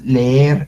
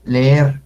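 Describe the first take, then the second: No difference in how they are said.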